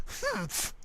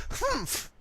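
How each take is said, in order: Both takes have the same delivery.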